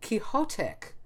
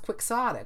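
First: The x is not sounded as ks. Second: The x is sounded as ks. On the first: The speaker calls it wrong. "is not pronounced Quixotic" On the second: The speaker calls it right. "It's pronounced quixotic. We pronounce the X in it"

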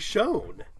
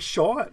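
First: The word has the American pronunciation. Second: The word has the Canadian pronunciation. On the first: "both coasts, we both say Sean" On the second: "But they say Sean"

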